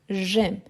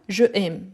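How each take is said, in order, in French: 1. La voyelle de 'je' tombe, ça ne fait qu'un seul mot. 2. La voyelle de 'je' se prononce entièrement, séparément. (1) "non, j'aime" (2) "C'est pas je aime"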